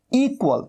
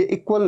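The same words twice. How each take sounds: First: इक्वल as "EE-kwal", high pitched; correct long first vowel. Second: इक्वल with a short i, "ik-wal"; wrong short vowel. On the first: Teacher answering with long-vowel "ee-kwal". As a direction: stretch the opening ee of इक्वल. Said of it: "बड़े ई की मात्रा". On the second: Teacher showing what it is not, "ik-wal". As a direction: say इक्वल starting short and quick on i. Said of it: "ये इक्वल नहीं है". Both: Shown as a demonstration.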